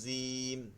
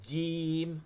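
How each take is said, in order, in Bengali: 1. "j" উচ্চারণে জিব দাঁত ছোঁয়। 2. "j" উচ্চারণে জিবের মাঝখান ব্যবহার হয়, দাঁত ছোঁয় না। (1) "এই যে জিব্বাটা দাঁতে লাগতেছে।" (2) "জিব্বাটা এই দাঁত পর্যন্ত আসতেছেই না।"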